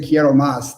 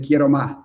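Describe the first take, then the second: First: The final s of más is pronounced. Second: The final s of más is dropped, coastal style.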